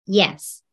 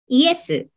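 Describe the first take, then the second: First: It is said with a native English Y sound. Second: It is said with Japanese katakana-style sounds. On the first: "英語ではこういう感じの音になります" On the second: "今お伝えしているイエスノのイエス"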